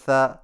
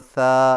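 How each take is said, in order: First: The vowel is short. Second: The vowel is long. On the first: "ज़बर" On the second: "खड़ी ज़बर"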